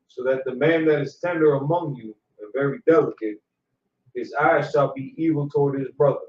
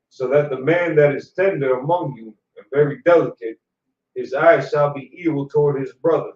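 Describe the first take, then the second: First: It is read at a quieter volume. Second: It is read at a louder volume.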